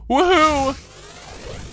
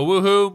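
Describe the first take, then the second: First: It sounds happy and excited. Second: It sounds sad and deflated.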